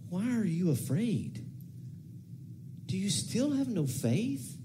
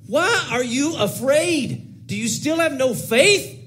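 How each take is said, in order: First: The questions sound gentle, loving and sorrowful. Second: The questions sound irritated and exasperated. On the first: The speaker grieves out of love for the listeners. The speaker calls it right. "just dripping with compassion and probably grief and love" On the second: The speaker is annoyed with the listeners. The speaker calls it wrong. "it would have come exploding out of me with multitudes of irritability"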